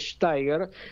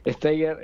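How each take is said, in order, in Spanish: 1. El nombre se pronuncia de la forma original, extranjera. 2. El nombre se pronuncia de la forma local, al estilo español. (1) "mi apellido lo diría mi abuelo, este sería Steiger" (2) "aquí eh, Steiger está perfecto"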